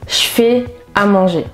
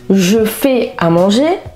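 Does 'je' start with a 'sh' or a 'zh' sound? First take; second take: sh; zh. First: 'Je' is said with a voiceless 'sh' sound. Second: 'Je' is said with a voiced 'zh' sound. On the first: The speaker calls it right. "mais ... je se prononcera ch" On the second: The speaker calls it wrong. "on ne dira pas"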